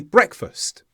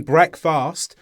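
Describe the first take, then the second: First: "breakfast" as brek-fust, with a schwa; weakened ending. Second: "breakfast" as break-fast, full a in "fast"; unweakened vowels. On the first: Teacher shows natural speech, "breakfast" with weak ending. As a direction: reduce the second syllable of "breakfast". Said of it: "we say breakfast". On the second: Teacher shows what not to say, "breakfast" with full "fast". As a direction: overpronounce the second syllable of "breakfast". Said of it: "Instead of saying breakfast". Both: Shown as a demonstration.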